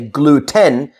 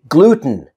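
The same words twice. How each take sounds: First: A clear vowel is heard between t and n. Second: No vowel is heard between t and n. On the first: The speaker calls it wrong. "I'm not going to say gluten" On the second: The speaker calls it right. "I say gluten"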